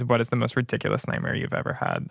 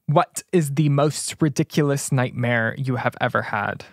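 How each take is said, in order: First: It is said fast with the words running together. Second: It is said slowly with each word clearly separated. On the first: The speaker calls it wrong. "You're talking so fast and you're mumbling" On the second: The speaker calls it right. "so enunciate, babe"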